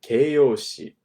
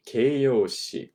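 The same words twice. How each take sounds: The two takes are said the same way.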